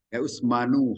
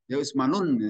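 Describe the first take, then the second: First: The name ends on a plain u vowel. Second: The name ends with an added n sound. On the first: The speaker calls it right. "mesti dibaca Usmanu, didomahkan" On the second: The speaker calls it wrong. "salah itu secara tata bahasa"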